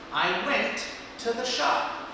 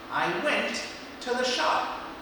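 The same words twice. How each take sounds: The two takes are said the same way.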